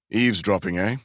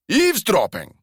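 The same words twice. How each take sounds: First: Said in the usual way. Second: "Eavesdropping!" thrown back much higher and louder; outraged echo of "Eavesdropping!" in a Glasgow accent; indignant disbelief. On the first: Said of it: "said without inflection". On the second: Acted. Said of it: "indignation or incredulity".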